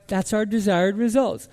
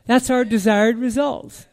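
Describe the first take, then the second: No difference in how they are said.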